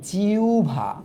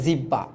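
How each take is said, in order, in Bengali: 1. মাঝে w উচ্চারণ, তারপর bh। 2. মাঝে দ্বিত্ব b ধ্বনি। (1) "এটার উচ্চারণ হচ্ছে জিউভা" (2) "অনেকে বলে জিব্বা"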